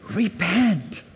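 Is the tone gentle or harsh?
gentle. It is said gently, with a compassionate tone. The speaker calls it right. "I think the tone is repent. ... The tone is patience, love, kindness, and compassion"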